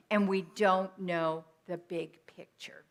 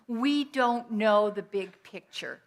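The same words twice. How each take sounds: First: Said in the usual way. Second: Slow, each word of "We don't know the big picture" weighed; stressed. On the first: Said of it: "repeat of key line". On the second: Real, not acted. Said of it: "preacher stresses key line".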